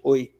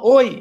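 First: It is said flatly and short. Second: It is said excitedly, like an exclamation.

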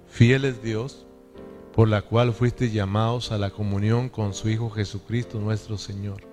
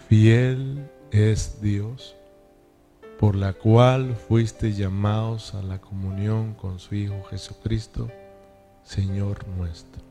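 First: It is read at a normal pace. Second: It is read very slowly.

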